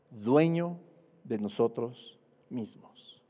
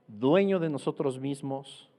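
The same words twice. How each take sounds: First: Dueño set apart after a pause, then de nosotros mismos slow and softer; slow, emphatic repeat. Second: Said in the usual way. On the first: Shown as a demonstration. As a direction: let each word land, slowly and quietly. (repetición lenta y enfática, más suave al final) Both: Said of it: "que significa".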